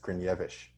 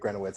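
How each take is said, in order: First: The name ends with a 'ch' sound. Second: The name ends with a 'ts' sound. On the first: This is the original way of saying it. The speaker calls it right. "apparently the correct pronunciation is Grinevich" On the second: This is the everyday anglicized way of saying it. The speaker calls it wrong. "I would say it Grenowitz. I'd butcher it"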